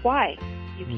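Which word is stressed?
why. The stress is on "why".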